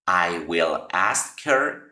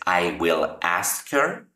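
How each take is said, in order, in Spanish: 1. Cada palabra se dice por separado y completa. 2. Cada palabra se dice por separado y completa.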